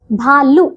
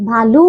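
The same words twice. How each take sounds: First: भालू with a short final u; wrong short ending. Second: भालू with a long final oo; correct long ending. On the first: Teacher showing pupils the error, भालू with short u. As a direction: cut the last vowel of भालू short. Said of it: "भालू नहीं". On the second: Teacher correcting pupils, भालू with long oo. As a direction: lengthen the last oo of भालू. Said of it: "भालू होता है". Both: Shown as a demonstration.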